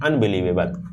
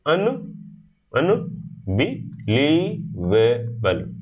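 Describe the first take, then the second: First: Said in the usual way. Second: "अनबिलीवेबल" very slow, long gaps between syllables; broken into syllables. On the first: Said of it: "यदि आपको बोलना है अनबिलीवेबल". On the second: Shown as a demonstration. Teacher drills a hard word, "अनबिलीवेबल" one syllable at a time. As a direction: isolate every syllable of "अनबिलीवेबल". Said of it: "बीच-बीच में break करते हो".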